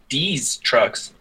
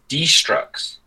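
First: It sounds like two words, D's trucks. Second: It sounds like the start of destruction. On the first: The speaker calls it wrong. "it's not D's Trucks" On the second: The speaker calls it right. "like destruction"

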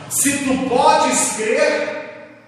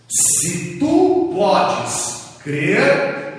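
First: It is said at a normal reading pace. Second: It is said very slowly and deliberately.

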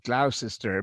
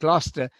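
First: The name is said in an American-style way. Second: The name is said in the local British way. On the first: The speaker calls it wrong. "mispronounced in America sometimes as" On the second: The speaker calls it right.

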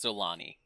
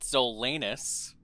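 First: The name ends with an 'ee' sound. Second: The name ends with an 'us' sound. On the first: The speaker calls it right. "actually, it's pronounced Zolani" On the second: The speaker calls it wrong. "some pronounce it Zolanus"

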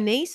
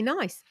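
First: The vowel is long, as in 'niece'. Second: The vowel is a diphthong, as in 'ice'. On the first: The name is said the continental, French way. "You say nice" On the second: The name is said the usual British way. "I say nice"

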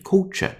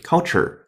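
First: It is said in a British accent. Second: It is said in an American accent. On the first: "典型的英音" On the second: "美音"

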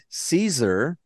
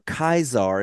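First: It is said in the common anglicized way. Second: It is said in the classical Latin way. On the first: This is the everyday modern form of the name. "it's become Caesar" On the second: This is how the name originally sounded. "if you want to actually pronounce it"

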